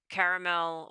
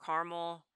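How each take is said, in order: First: "caramel" said as CARE-uh-mel; "caramel" with its middle uh sounded; three-syllable pronunciation. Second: "caramel" said as CAR-mul; "caramel" with its middle vowel dropped; two-syllable pronunciation. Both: Shown as a demonstration. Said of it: "I use both interchangeably".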